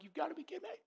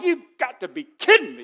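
First: Much higher, much softer, breathless incredulity; whispered disbelief. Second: Louder, higher, fed-up retort; exasperated disbelief. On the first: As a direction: mutter it under your breath, stunned. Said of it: "I'm just like". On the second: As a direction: throw it out like a put-upon worker. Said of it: "I'm like". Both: Retold or imitated.

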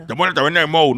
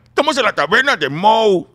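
First: Loud character voice lacking the Mexican accent; non-Mexican accent. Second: Loud, high Mexican-accented cartoon dad. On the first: Comedian showing the wrong take, non-Mexican accent. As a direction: do the cartoon line without any Mexican lilt. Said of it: "no, tiene que ser mexicano". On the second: Comedian showing the correct dubbed take, exaggerated Mexican accent. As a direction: belt it out with a big Mexican lilt. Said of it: "tiene que ser mexicano". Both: Shown as a demonstration.

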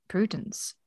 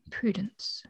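First: Said in the usual way. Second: Whispered name. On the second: A narrator's reading. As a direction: whisper Prudence softly, with no voice. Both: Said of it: "Sir Anthony repeated".

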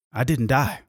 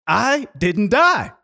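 First: Said in the usual way. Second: High, loud, drawn-out exclamation; loud emphatic revelation, pitched way up; triumphant realization. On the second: Retold or imitated. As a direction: stretch it out in amazed triumph. Same realization repeated in triumph.

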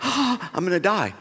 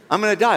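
First: Slow, softer, laughing through the words; half-laughing mock panic; laughing despair. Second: Said in the usual way. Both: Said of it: "I'm crumbling".

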